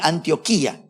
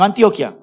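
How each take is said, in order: First: The 'i' near the end is stressed. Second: The 'i' near the end is unstressed. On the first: The speaker calls it right. "con tilde en la I" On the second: The speaker calls it wrong. "No Antioquia, colombianos"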